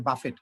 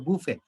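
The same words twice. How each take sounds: First: বাফেট said as "ba-fet", with the final t sounded; বাফেট with a clear t at the end, as the common mistake; wrong pronunciation. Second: বুফে said as "boo-fay", no t at the end; বুফে ending open on the vowel, t silent; correct pronunciation. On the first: Teacher showing students the wrong way to say buffet. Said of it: "এটা বাফেট নেই". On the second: Teacher showing students the right way to say buffet. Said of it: "শেষে টির কোনো উচ্চারণ নাই". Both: Shown as a demonstration.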